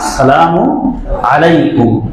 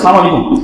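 First: The greeting starts with the full 'as-salamu' syllables. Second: The greeting starts without the opening 'as-' syllable. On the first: It wishes peace on the listener. The speaker calls it right. "অথচ উচ্চারণ হবে কি" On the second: It wishes death on the listener. The speaker calls it wrong. "এরকম অনেকে বলে সালাম আলাইকুম"

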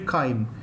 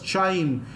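First: It is said starting with a k sound. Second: It is said as spelled, starting with ch. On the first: The speaker calls it right. "the actual pronunciation is actually chyme" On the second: The speaker calls it wrong. "I used to love pronouncing this as chyme. The reason is my spelling will not go wrong"

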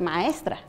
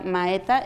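First: The s and r sounds are fully pronounced. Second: The s and r sounds are left out. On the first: The speaker calls it right. "en vez de maestra" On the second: The speaker calls it wrong. "yo todavía decía maeta"

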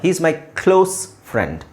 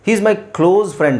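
First: 'Close' ends with an s sound. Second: 'Close' ends with a z sound. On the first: The speaker calls it right. "ನೀವು ಎಸ್ sound end ಮಾಡಿದ್ರೆ" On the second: The speaker calls it wrong. "ಅಲ್ಲ"

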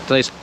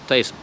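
No difference in how they are said.

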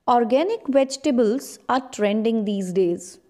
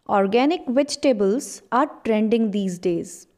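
No difference in how they are said.

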